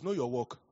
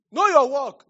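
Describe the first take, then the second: First: Said in the usual way. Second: Much higher and louder shout; loud emphatic repeat. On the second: Real, not acted. A preacher shouting advice to the congregation, loud and high.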